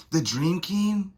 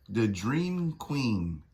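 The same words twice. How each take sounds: First: High, rising disbelief; incredulous question. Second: Drawn out and falling; slow grand title. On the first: Reacting to the villain's title, high incredulous question. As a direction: ask it like you can't believe it. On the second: Voicing the villain's grand title, slow and falling. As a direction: savour each word of the name. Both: Acted.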